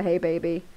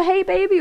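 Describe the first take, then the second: First: Said in the usual way. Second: Mock caller voice. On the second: Streamer acting the mystery caller's hey baby, higher and louder. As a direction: play the caller high and loud. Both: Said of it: "Is that me or you?".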